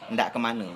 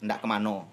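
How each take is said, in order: First: The last word ends with an e sound. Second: The last word ends with an o sound. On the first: "yang yang halusnya ndak kemana" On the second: "kalau bahasa kami ndak kemano"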